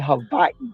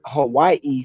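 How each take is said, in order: First: The middle consonant is a V sound. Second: The middle consonant is a W sound. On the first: This is how native Hawaiians say the name. "the true Hawaiians, true Polynesians, you'll hear them say Hawaii" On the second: This is the mainland American form of the name. "the United States actually started calling it Hawaii"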